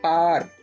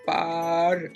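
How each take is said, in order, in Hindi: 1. शब्द सामान्य गति से कहा गया है। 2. शब्द को धीरे-धीरे, आवाज़ दर आवाज़ खींचकर कहा गया है। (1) "असल लफ्ज जो है वो है" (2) "आवाजों को समझने के लिए हम आहिस्ता बोल रहे हैं"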